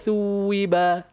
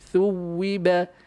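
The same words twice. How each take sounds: First: The vowel is stretched long instead. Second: The w consonant is doubled and held. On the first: The speaker calls it wrong. "jangan ... anda just bubuh mat eh" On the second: The speaker calls it right. "syaddah maka anda emphasize bunyi syaddah"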